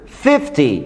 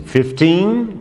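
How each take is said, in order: First: "Fifty" ending in a short I sound. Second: Put-on "Fifteen" ending in a long bright "teen"; fifteen with doorbell ending. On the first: ("Fifty" com som de I no final) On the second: ("Fifteen" com som de campainha no final) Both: Shown as a demonstration. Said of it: "Ó a diferença de quinze".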